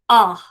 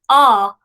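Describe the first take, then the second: First: The syllable ends with a forceful breathy h. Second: The syllable ends plainly with no breathy h. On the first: The speaker calls it right. "it's ah, so a little bit of breathiness on it" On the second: The speaker calls it wrong. "instead of ah"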